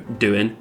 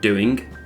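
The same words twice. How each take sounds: First: The final G sound is dropped. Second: The final G sound is pronounced. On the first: The speech is casual. "without the G sound at the end" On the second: The speech is more formal. "instead of"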